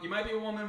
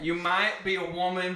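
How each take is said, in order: First: It is spoken in a plain accent. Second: It is spoken in a country accent. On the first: "Okay, I gave it a shot" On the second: "I'm gonna read it in a country accent"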